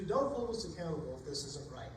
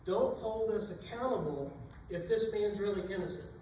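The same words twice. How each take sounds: First: Lower, settled repeat of the plea; a lower, more resigned echo of the plea. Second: Desperate sailors' pleading prayer. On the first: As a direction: bring the prayer down, almost to yourself. Sailors repeat their prayer. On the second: Sailors praying before throwing Jonah. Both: Acted.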